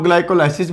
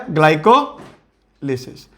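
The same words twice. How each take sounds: First: ग्लाइकोलाइसिस with "lai" as in "lie"; alternative pronunciation. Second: ग्लाइकोलिसिस with a short "li", glai-ko-li-sis; usual pronunciation. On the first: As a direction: say ग्लाइकोलाइसिस as glai-ko-lai-sis. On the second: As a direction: slowly split ग्लाइकोलिसिस, "lisis" with short i sounds. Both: Shown as a demonstration. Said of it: "कुछ लोग ग्लाइकोलाइसिस भी कहते हैं".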